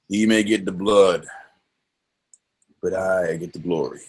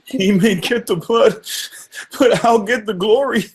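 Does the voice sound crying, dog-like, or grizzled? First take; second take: grizzled; crying. First: It is said in a grizzled Quint voice. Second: It is said in a crying voice.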